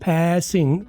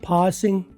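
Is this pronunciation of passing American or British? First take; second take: American; British. First: It is said with an American 'a' vowel. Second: It is said with a British 'aa' vowel.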